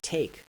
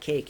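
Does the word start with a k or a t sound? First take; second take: t; k. First: The word starts with a t sound. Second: The word starts with a k sound. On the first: "you get take at the alveolar ridge" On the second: "that velar sound k"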